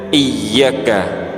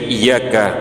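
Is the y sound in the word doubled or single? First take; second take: doubled; single. First: The y sound is held and doubled. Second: The y sound is short and single. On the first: It means 'you alone'. The speaker calls it right. "Cara yang benar iyyaka dengan penekanan" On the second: It means sunlight. The speaker calls it wrong. "dibaca cepat tanpa tasydid"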